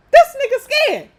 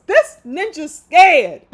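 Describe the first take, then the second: First: A loud, high hint of [name]. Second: A slow, loud hint of [name]. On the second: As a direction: drag it out slowly, [name]-style, loud. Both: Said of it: "I gotta say that in my [name] voice".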